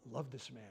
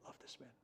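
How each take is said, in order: First: Soft prayer. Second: Much softer, almost breath only; near-whispered prayer. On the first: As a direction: lower and softer plea. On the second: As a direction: let it fade to a hush. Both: Real, not acted.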